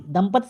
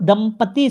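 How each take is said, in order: First: "दंपति" with a clipped ending, dam-pat; wrong form dampat-i. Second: "दंपति" ending on long ee, dam-pa-tee; corrected form dampatee. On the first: Teacher showing the wrong word, "दंपति" as dam-pat. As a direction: cut the last vowel of "दंपति" very short. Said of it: "दंपति शब्द गलत". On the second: Teacher giving the right word, "दंपति" slowly as dam-pa-tee. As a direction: stretch the end of "दंपति", slowly. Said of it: "दंपति शब्द सही है". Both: Shown as a demonstration.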